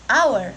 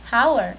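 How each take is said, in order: First: The word starts with a vowel sound. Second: The word starts with an h sound. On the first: The speaker calls it right. "pelafalannya menggunakan huruf vokal" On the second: The speaker calls it wrong. "bukan hour"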